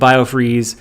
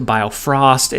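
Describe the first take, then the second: First: It is said as bio-freeze. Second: It is said as bio-frost. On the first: "so we were saying biofreeze" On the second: "We then corrected it to biofrost"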